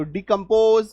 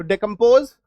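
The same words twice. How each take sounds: First: डिकम्पोज drawn out slowly with "dee" first. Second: डिकम्पोज with a "day" first syllable, louder. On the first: Teacher drilling both forms for students, "dee" at the start of डिकम्पोज. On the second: Teacher drilling both forms for students, "day" at the start of डिकम्पोज. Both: Shown as a demonstration. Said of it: "डी plus डे दोनों आप याद रखिएगा".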